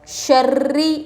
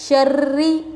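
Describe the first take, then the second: The two takes are said the same way.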